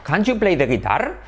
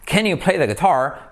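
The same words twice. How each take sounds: First: "Can't you" with full vowel, rising on "guitar"; learner's question lifting at "guitar"; former learner pronunciation. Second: Slower question falling on "guitar"; "Can" as "ken", "guitar" stressed on the last syllable; native pronunciation. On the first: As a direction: imitate your old non-native "Can't you play the guitar". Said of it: "yo antes decía". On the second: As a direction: imitate a native's "Can you play the guitar". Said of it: "los nativos decían". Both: Retold or imitated.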